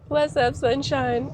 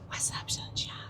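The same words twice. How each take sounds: First: It is said in a normal voice. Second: It is said in a whisper.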